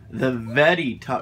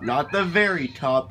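First: The middle consonant of 'very' sounds like D. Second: The middle consonant of 'very' sounds like R. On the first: The speaker calls it right. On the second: The speaker calls it wrong.

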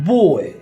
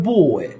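No difference in how they are said.

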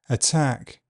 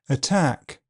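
First: The T is released with a hissing friction. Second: The T is released with a puff of air. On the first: "affricated, with a fricative release" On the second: "aspirated, with a puff of air"

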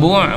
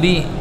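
First: The syllable has the vowel u. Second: The syllable has the vowel i. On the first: The speaker calls it right. "Ulang bu' bukan bi" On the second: The speaker calls it wrong. "bukan bi"

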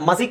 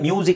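First: The first syllable sounds like 'muh'. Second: The first syllable sounds like 'myoo'. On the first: The speaker calls it wrong. "ಮ್ಯೂಸಿಕ್ ಎಲ್ಲ ಮಸಿಕ್ ಅಂತ ಬರಲ್ಲ" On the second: The speaker calls it right. "ಅದು ಮ್ಯೂಸಿಕ್ ಅಂತಲೇ ಬರುತ್ತೆ"

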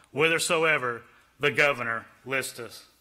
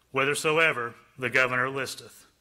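Both takes have the same delivery.

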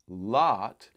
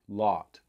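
First: The vowel matches the open ah of father. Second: The vowel differs from the ah of father. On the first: This is how most Americans say it. "as most Americans would say, it's something more like lot" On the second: Only some speakers say it this way. "for some speakers, there's a difference between father, lot"

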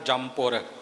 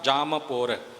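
First: The m runs straight into the p. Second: The lips open after m before the p. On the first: The speaker calls it wrong. "ਆਮ ਸਾਡਾ ਉਚਾਰਨ ਬਣਿਆ ਹੁੰਦਾ ਜਮਪੁਰ। ਜਮਪੁਰ ਕਰਕੇ ਨਹੀਂ ਬੋਲਣਾ" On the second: The speaker calls it right. "ਜਾਮ ਬੋਲ ਕੇ ਆਪਣਾ ਬੁੱਲ ਖੋਲ੍ਹਣਾ ਹੈ, ਫਿਰ ਅੱਗੇ ਪੁਰ ਬੋਲਣਾ ਹੈ"

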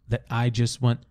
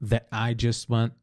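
Both takes have the same delivery.

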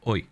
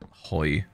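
First: The word begins directly with the vowel. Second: The word begins with an audible h sound. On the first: The speaker calls it right. "I need to get into the habit of like taking that out. Just going oi" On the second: The speaker calls it wrong. "I always pronounce oi as hoy because it's spelt hoy"

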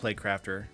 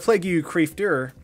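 First: The name is pronounced in the ordinary way. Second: The name is pronounced with distorted sounds.

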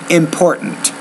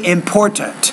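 First: The middle T is replaced by a glottal stop. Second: The middle T is released as a full T. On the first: "I say important" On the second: "You say important"

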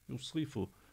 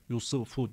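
First: The second vowel sounds closer to 'i'. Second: The second vowel sounds like a full 'u'. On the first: The speaker calls it right. "Gördüğünüz gibi sı diyorum" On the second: The speaker calls it wrong. "Yusufu değil"

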